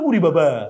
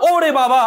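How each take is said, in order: First: The first vowel sounds like 'u'. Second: The first vowel sounds like 'o'. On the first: The speaker calls it wrong. "আমরা উরি বাবা" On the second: The speaker calls it right. "এটা হবে কি ও"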